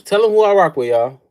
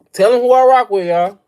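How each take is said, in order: First: Shouting it to the chat, louder each time; hyped callout. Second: Higher, louder shout to the chat; louder hyped callout. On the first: Streamer shouting to his chat who he rides with. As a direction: yell it out to everyone. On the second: Streamer yelling his team loyalty at chat. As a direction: belt it out. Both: Real, not acted.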